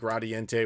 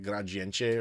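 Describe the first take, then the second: First: The name is said with an English pronunciation. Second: The name is said with a Portuguese pronunciation. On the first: The speaker calls it wrong. "I pronounce it Gradiente, which is objectively wrong" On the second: The speaker calls it right. "in Portuguese it would be like Gradiente"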